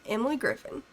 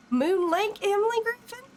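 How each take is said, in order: First: Said in the usual way. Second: "Moon Lake Emily Griffin" asked high with a surprised rising lift; sudden delighted realisation, voice jumping up on "Emily"; startled, amused rising question; surprised recognition. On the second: Real, not acted.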